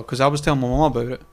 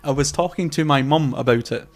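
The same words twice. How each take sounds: First: Quick, hurried run through the words; too fast. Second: Measured, word-by-word delivery; slow it down and space out each word; deliberately slower. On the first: Podcaster mentioning a chat with mum, talking too fast. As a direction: rattle it off at a fast clip. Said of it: "sometimes I talk too fast". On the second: Podcaster repeating for viewers after talking too fast, deliberately slower. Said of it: "say that again a bit slower". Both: Shown as a demonstration.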